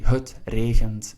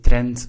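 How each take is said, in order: First: It is said as two separate words. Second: It is squeezed into one short word. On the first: This is the standard Flemish form. "but in Flemish, it's actually" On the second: This is the local dialect form. "we would pronounce it as one word"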